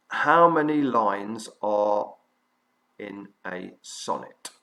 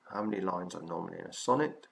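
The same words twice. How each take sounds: First: Slow, spaced-out question for note-taking; deliberate dictation pace with clear gaps. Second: Brisk, run-together question; fast, lower-key restating of a question; quick repeat. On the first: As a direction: dictate it word by word, unhurried. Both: Real, not acted.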